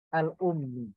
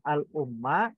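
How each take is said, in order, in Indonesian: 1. Kata itu berakhir dengan vokal i. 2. Kata itu berakhir dengan vokal a. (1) "bukan al-ummi" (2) "bukan al-umma"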